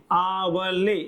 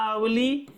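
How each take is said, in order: First: आवले with drawn-out आ, said slowly; long opening vowel. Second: अवली with short अ first, long ली; short opening vowel. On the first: Teacher showing the other similar-sounding word, आवले with long slow आ. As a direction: stretch the first vowel of आवले. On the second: Teacher showing one of two similar-sounding words, अवली with short अ. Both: Shown as a demonstration. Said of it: "जो समान तो सुनाई देते हैं".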